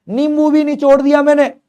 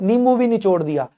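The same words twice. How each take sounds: First: Louder excited repeat. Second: Said in the usual way. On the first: Shown as a demonstration. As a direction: repeat नींबू भी निचोड़ दिया higher and louder, with excitement. (नींबू भी निचोड़ दिया ऊँची और तेज़ आवाज़ में, जोश से दोहराना)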